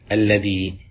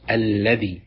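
First: The word ends in a long i vowel. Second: The word ends in a short i vowel. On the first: "اللغة العالية وهي مستعملة في كتاب الله" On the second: "بكسر الذال من غير ياء"

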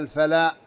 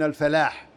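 First: The word ends without the h sound. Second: The word ends with a clear h sound. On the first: The speaker calls it wrong. "كأن يقول" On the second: The speaker calls it right. "ولا الحاء من الفلاح"

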